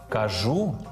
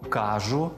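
First: The stress is on the second syllable. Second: The stress is on the first syllable. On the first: The speaker calls it right. "правильно наголошувати ці дієслова так" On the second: The speaker calls it wrong. "Помилковим є наголошування"

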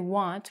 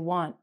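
First: The final T is clearly pronounced. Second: The final T is cut off and not released. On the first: The speaker calls it wrong. "We don't say want" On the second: The speaker calls it right. "we say want"

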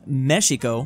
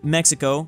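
First: The word is said with the original native pronunciation. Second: The word is said with the English pronunciation. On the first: "The original native pronunciation is Mexico" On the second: "I'm speaking English and I just said Mexico"

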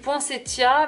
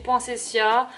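First: The consonant before the ending sounds like t. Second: The consonant before the ending sounds like s. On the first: This is the speaker's own habitual pronunciation. "moi, je dis poinsettia" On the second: This is the accepted pronunciation of the word. "ça se dit poinsettia"

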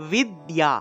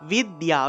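The two takes are said the same way.

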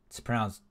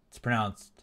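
Both takes have the same delivery.

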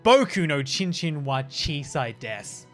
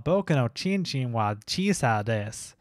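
First: It is said in a plain accent. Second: It is said in a Southern accent.

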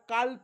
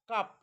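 First: An L sound is pronounced before the final consonant. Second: No L sound is pronounced in the word. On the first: The speaker calls it wrong. "याला काल्प म्हणू नका" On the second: The speaker calls it right. "या काप शब्दामध्ये एल हा silent आहे"

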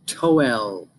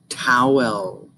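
First: The first vowel sounds like the vowel in toe. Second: The first vowel sounds like the vowel in cow. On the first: The speaker calls it wrong. "That doesn't sound right, does it?" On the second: The speaker calls it right. "You got it"

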